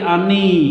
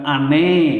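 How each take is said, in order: First: The word ends with an 'ee' vowel. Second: The word ends with an 'e' vowel. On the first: The speaker calls it right. "tapi ani" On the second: The speaker calls it wrong. "bukan ane"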